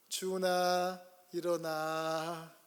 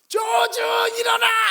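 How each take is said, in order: First: It is said in a soft, gentle voice. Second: It is said in a sharp, angry voice. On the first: The parent is still patient. "처음에는 나이스하고 젠틀한 목소리를 이야기해요" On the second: The parent has lost patience. "거기에 자신의 앵걸, 앵자이어리를 담아서"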